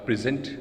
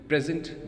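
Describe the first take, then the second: First: The stress is on the first syllable. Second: The same.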